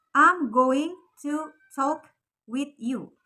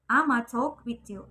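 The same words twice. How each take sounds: First: I'm going to talk with you drawn out slowly, every word spelled out; slow careful full form. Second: Ama said as one quick word; slang ama. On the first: Teacher slowly models the full form for students. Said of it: "Kalau dalam bahasa Inggris lengkapnya itu". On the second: Teacher models the slang ama for students. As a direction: clip I'm going to down to ama. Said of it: "kita ganti pakai ama". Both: Shown as a demonstration.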